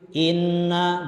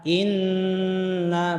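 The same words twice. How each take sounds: First: The nasal n is not held at all. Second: The nasal n is held for two extra counts. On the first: The speaker calls it wrong. "belum tahan" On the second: The speaker calls it right. "baru ta, tahan. Itu kalau satu alif"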